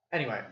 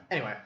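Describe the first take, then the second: No difference in how they are said.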